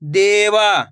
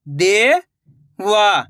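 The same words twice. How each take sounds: First: Said in the usual way. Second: देवा drawn out slowly, syllable by syllable; slow syllable split. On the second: Shown as a demonstration. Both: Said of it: "मैं किस तरीके से".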